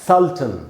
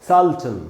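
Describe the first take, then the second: Both takes have the same delivery.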